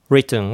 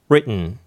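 First: The t is clearly released. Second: The t is swallowed into a stop.

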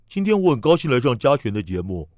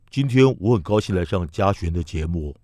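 First: The voice sounds more open, less covered. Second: The voice sounds rounded and covered. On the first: "它不要包这么密呢" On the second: "把嘴型包起来。"

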